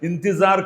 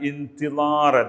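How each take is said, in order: First: The middle consonant is a z sound. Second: The middle consonant is not a z sound. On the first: This is how it is said in Hindi. "ഇന്ത്യയുടെ പ്രൊണൗൺസിയേഷൻ സ എന്നാണ്" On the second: This is how it is said in Arabic. "അതിൽ നമ്മൾ പറയുന്നത് എന്താണ്?"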